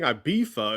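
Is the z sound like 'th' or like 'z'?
th. The middle consonant sounds like th.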